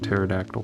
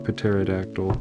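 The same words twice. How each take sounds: First: The word begins with a silent p. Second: The word begins with a sounded p. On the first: The speaker calls it right. "I have to think about it to say pterodactyl" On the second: The speaker calls it wrong. "I just pronounce it how it's spelled"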